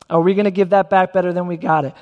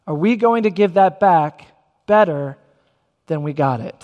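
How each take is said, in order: First: Said in the usual way. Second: Phrase by phrase, pausing before and after "better". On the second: Real, not acted. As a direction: let "better" stand alone between pauses, then drop lower. Preacher poses challenge, pausing for weight.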